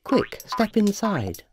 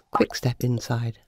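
First: Slow, stretched reading of Quick, step inside; slow and drawn out. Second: Quick, step inside said lower and flatter; lower second reading. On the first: Narrator trying the notice one way, slowly. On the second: Narrator rereading the notice, lower. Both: Shown as a demonstration. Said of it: "Or was it".

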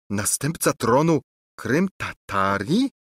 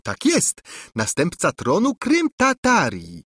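First: Choked out. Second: A princess echoing her stunned cousin in mockery; mocking repeat. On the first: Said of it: "wykrztusił z trudem Lulejka". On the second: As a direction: parrot his words back to mock him. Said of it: "powtórzyła ... przedrzeźniając dalej". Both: A narrator's reading.

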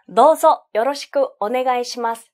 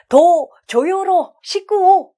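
First: Said in the usual way. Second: Slow, stumbling chunks, as if not understanding; halting beginner reading. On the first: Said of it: "아, 내용 아는구나". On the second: Shown as a demonstration. Teacher mimicking a learner who doesn't understand the sentence, halting. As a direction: read haltingly, breaking the words in the wrong places. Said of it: "아, 내용 모르는구나".

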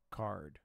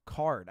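First: Said in the usual way. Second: Card said louder and firmer, as if landing on it. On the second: Real, not acted. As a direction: land on the word Card with conviction. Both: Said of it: "I feel like it's card".

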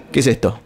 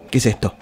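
No difference in how they are said.

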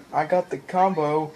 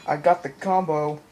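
No difference in how they are said.

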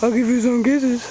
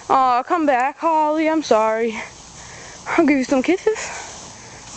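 First: Said in the usual way. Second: Slow, high coaxing to a pet. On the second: Real, not acted. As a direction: drawl it sweetly to the dog. Coaxing the dog, repeated.

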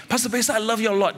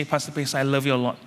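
First: Higher, fast mock affection; quick sweet-talk. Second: Said in the usual way. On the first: Friend sweet-talking the pastor before a slap, higher and fast. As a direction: rattle it off higher, buttering him up. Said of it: "And then after you say". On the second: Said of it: "and you say".

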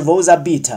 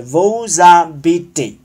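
First: Vous habitez misread as "voo-za-BEET"; wrong ending. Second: Vous habitez said slowly as "voo-za-bee-TAY"; slow habitez with a full final ay; correct ending. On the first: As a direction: show the mistake, dropping the final ay. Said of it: "不是". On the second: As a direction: show the right form, ending in ay. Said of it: "是". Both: Shown as a demonstration.

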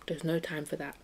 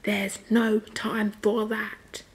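First: Said in the usual way. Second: Very slow, stretched-out put-on voice; drawn-out emphasis. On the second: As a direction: stretch every word of "There's no time for that". Repeats line for comic emphasis.

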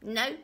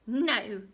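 First: Loud, gleeful little no; smiling refusal. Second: Loud, cross little-man no; snapped refusal. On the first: Little man enjoys her wrong guess, smiling. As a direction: say it with a smile, enjoying it. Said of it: "he smiled". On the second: Little man rejects her guess, snapping. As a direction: snap it out hard. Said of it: "he snapped". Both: A narrator's reading.

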